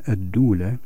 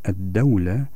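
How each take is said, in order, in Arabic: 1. الحركة الأولى هي صوت 'u'. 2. الحركة الأولى هي صوت 'a'. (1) "إذا كانت الدال مضمومة هكذا" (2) "أما إذا كانت الدال مفتوحة"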